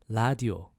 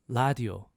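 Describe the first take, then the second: The two takes are said the same way.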